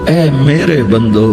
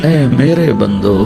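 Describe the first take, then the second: The two takes are said the same way.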